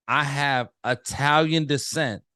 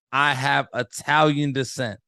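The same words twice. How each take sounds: The two takes are said the same way.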